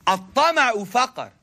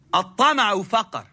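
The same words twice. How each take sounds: First: "At-tama'u faqr" slowed, each syllable spaced and clear; slow, deliberate recitation. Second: Said in the usual way. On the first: Shown as a demonstration. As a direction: spell out "At-tama'u faqr" slowly for the listeners.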